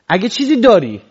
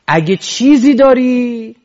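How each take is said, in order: First: Said in the usual way. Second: Slow emphatic چیزی; drawn-out emphasis. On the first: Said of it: "repeated faster". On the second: Acted. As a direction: stretch چیزی slow and high. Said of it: "repeated emphatic question".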